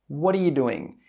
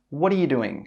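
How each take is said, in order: Both takes have the same delivery.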